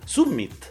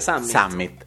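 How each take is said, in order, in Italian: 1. La parola si pronuncia come si scrive, alla latina. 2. La parola si pronuncia all'inglese. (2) "Si dovrebbe pronunciare summit"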